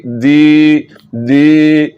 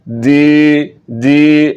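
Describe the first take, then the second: Both takes have the same delivery.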